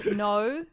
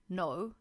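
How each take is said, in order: First: It is said with an Australian vowel. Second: It is said with an American vowel. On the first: "In Australian, it's no" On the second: "instead of no, is that American?"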